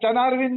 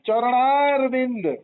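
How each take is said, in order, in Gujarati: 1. આ શબ્દ 'ra' ઉચ્ચારણ વગર બોલાય છે. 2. આ શબ્દ સંપૂર્ણ 'rana' ઉચ્ચારણો સાથે બોલાય છે. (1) "ચનારવિંદ નહીં"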